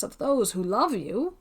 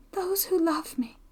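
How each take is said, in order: First: Said in the usual way. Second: Put-on higher, softer, half-whispered girl's voice; wounded echo. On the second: Young woman questions her friend's mention of loved ones, softly wounded. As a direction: echo the words wistfully, high and hushed. Girl echoes his words, hurt.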